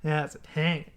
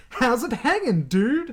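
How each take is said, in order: First: Low-key, softer Australian greeting; Australian accent. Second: Higher-pitched, jokey surfer-like greeting; botched Chucky imitation. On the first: Retold or imitated. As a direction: say it like a typical Australian guy, quietly. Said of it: "sounded like a typical Australian guy". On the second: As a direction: throw the line out high and playful. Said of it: "That's not how he says it".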